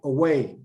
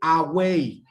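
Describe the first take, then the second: First: The first vowel is a short schwa. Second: The first vowel is a full vowel. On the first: The speaker calls it right. "We say away" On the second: The speaker calls it wrong. "We don't say"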